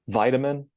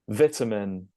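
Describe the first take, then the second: First: It is said in an American accent. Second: It is said in a British accent. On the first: "and then the American version" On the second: "starting with the British version"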